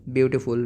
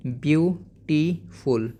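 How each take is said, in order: First: Said in the usual way. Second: Beautiful in three slow beats, beau... ti... ful; split into syllables. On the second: Shown as a demonstration. Teacher showing how you can say it, syllable by syllable. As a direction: stretch beautiful, pausing after beau and ti. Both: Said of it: "you can say here like".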